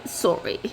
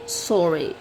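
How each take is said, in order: First: Breathy whisper, much lower pitch; whispered sorry. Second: Said in the usual way. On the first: Real, not acted. Whispered apology to viewers after the rant. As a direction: drop it to a hush.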